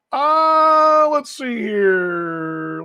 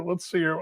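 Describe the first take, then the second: First: Let's see here stretched very slow; musing aloud while scanning comments; drawn-out stall. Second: Said in the usual way. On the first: Real, not acted. Host stalls, reading listener comments, drawn-out very slow.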